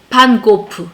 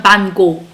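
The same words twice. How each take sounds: First: 반고프 said with a final 프 syllable; pronunciation demo. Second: 반고 ending open on 고, no final 프; pronunciation demo. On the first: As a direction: end 반고프 on an added "peu". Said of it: "이런 식으로 발음하고". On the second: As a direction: leave 반고 open on the "go". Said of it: "반고 이런 식으로 발음했다는". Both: Shown as a demonstration.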